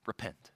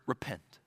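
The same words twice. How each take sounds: The two takes are said the same way.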